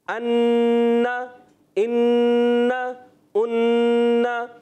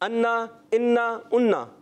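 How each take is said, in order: First: The doubled consonant is held before release. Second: The doubled consonant is rushed and not held. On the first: The speaker calls it right. "ذرا ٹھہر کر رک کر پکڑ کر پھر ادا کرنا ہے" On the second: The speaker calls it wrong. "اتنی اسپیڈ سے پڑھ دیتے تشدید تو چلی جاتی ہے"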